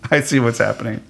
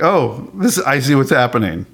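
First: Said through a soft laugh. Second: Lightly giddy realization; a touch of delighted discovery. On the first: Real, not acted. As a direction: chuckle the words out. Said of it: "I'm laughing also". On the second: Retold or imitated. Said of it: "I was giddy".

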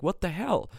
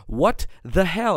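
First: Retold yell. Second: Slower and a bit louder, drawn out; mild mock yell, held back in the morning; slow retold yell. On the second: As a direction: stretch it out in mock outrage. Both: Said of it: "and I was really yelling".

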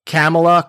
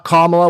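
First: Kamala with A as in cat, tossed out mockingly; Kamala as CAM-uh-la. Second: Louder Kamala with A as in father; Kamala as KAH-muh-la. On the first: Imitating a jerk mangling her name on purpose, Kamala as CAM-uh-la. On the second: Retold or imitated. Imitating a jerk toying with her name, Kamala as loud KAH-muh-la.

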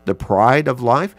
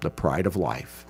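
First: Louder, asking The pride of life? with a rising tune; questioning rise. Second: The pride of life. softer, lower, falling to rest; quiet falling statement. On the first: Preacher asking his congregation, The pride of life? rising. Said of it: "what is the lust of the eyes". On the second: Preacher naming the devil's avenue, The pride of life. soft and falling. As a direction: let The pride of life. sink, soft and final. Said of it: "three avenues through which the devil works". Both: Shown as a demonstration.

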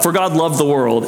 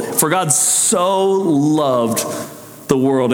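First: Said in the usual way. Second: For God so loved, with the word so drawn out and stressed, slowly. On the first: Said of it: "Not just that God". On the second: Shown as a demonstration. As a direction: lean hard on so, take your time. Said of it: "that word "so".

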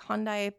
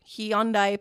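First: "Hyundai" said as HON-dai, two syllables; attempted pronunciation. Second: "Hyundai" said as hee-ON-dai, three syllables; attempted pronunciation. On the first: Narrator unsure of the car's name, "Hyundai" tried as HON-dye. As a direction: say "Hyundai" without any glide, like HON-dye. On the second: Narrator retrying the car's name, "Hyundai" said as hee-ON-dye. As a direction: say "Hyundai" starting with a clear hee. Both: Shown as a demonstration. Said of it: "mad at my pronunciation".

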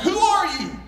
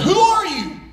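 First: High echoed call; mimicked call coming back from afar. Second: High-pitched call into the distance; retold boy's raised call. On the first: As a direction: imitate an echo of a high call. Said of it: "this voice came back". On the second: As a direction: call out high, as if to a stranger far off. Boy calls out to unknown voice.

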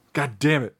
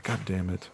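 First: Fuller-voiced mock frustration; exasperated retold curse. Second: Much quieter, low exasperated aside; muttered retold curse. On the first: Acting out annoyance at a rival impressionist, emphatic curse. Retold reaction, repeated harder. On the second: Retelling reaction to a rival impressionist, quiet low curse. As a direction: curse under your breath, low.

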